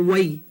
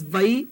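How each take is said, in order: First: "wai" starting with a w glide; "wai" said like why; W sound. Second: "vai" starting with a v; "vai" said like vye; V sound. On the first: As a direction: say "wai" with a rounded W onset. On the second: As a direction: say "vai" with a V onset. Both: Shown as a demonstration. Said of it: "Either way".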